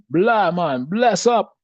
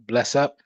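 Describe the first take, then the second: First: High, loud mock Jamaican accent; Sanya. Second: Said in the usual way. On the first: Showing Jeff how to say it, exuberant mock Jamaican accent. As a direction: belt it out in an imitated Jamaican accent. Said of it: "say it like, uh, Sanya used to say it". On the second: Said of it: "Next time you say big up".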